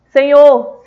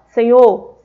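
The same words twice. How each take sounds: First: It is said at a raised, louder volume. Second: It is said at a normal speaking volume. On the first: "ou pode ser em tom mais alto" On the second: "pode ser em tom normal"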